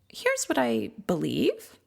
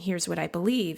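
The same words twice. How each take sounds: First: The voice rises at the end, like a question. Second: The voice falls at the end, like a statement. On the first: The speaker sounds unsure, as if asking permission. The speaker calls it wrong. "Upspeak. Kind of like maybe it's a question" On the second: The speaker is confident in the belief. The speaker calls it right. "instead of just saying"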